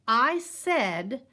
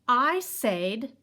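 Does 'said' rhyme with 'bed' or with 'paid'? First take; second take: bed; paid. First: The vowel in said sounds like bed. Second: The vowel in said sounds like paid. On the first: This is how it is said today. "now we've changed it. And now instead we say" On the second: This is the older way of saying it. "We used to say it that way"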